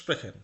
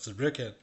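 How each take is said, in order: First: The word begins with an s sound. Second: The word begins with a z sound. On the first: The speaker calls it right. "এটার উচ্চারণ এসপি বা এস এর মতো হবে" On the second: The speaker calls it wrong. "জেড দিয়ে"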